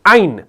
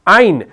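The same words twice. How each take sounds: First: The word ends on a silent, unvowelled n. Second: The word ends on a silent, unvowelled n.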